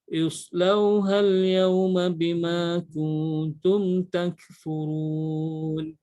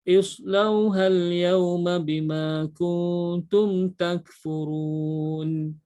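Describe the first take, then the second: Both takes have the same delivery.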